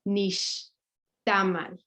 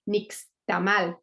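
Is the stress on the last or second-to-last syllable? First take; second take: second-to-last; last. First: The stress is on the second-to-last syllable. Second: The stress is on the last syllable. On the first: The speaker calls it right. "but it's actually nixtamal" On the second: The speaker calls it wrong. "Spanish speaking people just say nixtamal"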